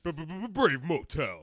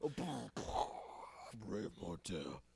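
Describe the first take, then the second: First: High, slow stuttered radio sting; morning zoo DJ. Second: Slow, soft, sultry lady voice; man doing a woman's voice. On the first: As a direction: hype it like a zoo crew DJ. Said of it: "morning Zoo Crew intro". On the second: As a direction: purr it like a sexy radio lady. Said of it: "random sexy lady voice". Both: Pretend.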